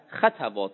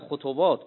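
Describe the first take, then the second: First: The first two vowels are a sounds. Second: The first two vowels are u sounds. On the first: It is the plural of the word for a single time or instance. "قرأ خطوات به فتحتین" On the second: It is the plural of the word for a single pace or step. "خطوات به ذمته این جمع خطوه"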